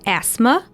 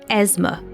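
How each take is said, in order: First: The middle consonant is an S sound. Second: The middle consonant is a Z sound. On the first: "with an S" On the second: "and Z sound"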